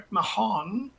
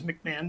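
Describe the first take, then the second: First: The name is said with an H sound. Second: The name is said with no H sound. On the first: The speaker calls it wrong. "Often they'll say" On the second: The speaker calls it right. "The H is silent"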